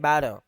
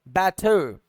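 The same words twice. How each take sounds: First: It is said in an American accent, flapped t. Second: It is said in a British accent, clear t.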